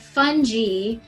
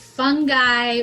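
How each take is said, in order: First: The g is pronounced like a j. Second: The g is pronounced as a hard g. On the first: "like with a J" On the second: "with the G"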